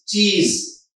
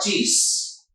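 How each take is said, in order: First: The word ends in a buzzing z sound. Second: The word ends in a hissing s sound. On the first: The speaker calls it right. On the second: The speaker calls it wrong.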